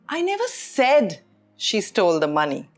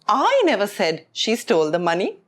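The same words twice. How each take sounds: First: The stress falls on the word said. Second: The stress falls on the word I. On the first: It was implied, not said. "which means I didn't say it, but it was implied" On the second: Someone else said it. "which means I didn't say it, someone else said"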